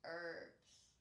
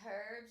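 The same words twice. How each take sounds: First: The word begins with a vowel, no H. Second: The word begins with an audible H sound. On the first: "with a silent H" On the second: "with an H, which is"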